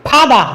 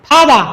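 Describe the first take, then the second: Both takes have the same delivery.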